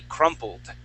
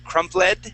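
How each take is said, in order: First: The L runs straight into the final D. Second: An extra vowel is sounded before the final D. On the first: The speaker calls it right. "the word would be crumpled" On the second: The speaker calls it wrong. "you had said crumpled"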